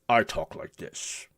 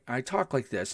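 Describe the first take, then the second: First: It is said in a deep Worf voice. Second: It is said in a normal voice.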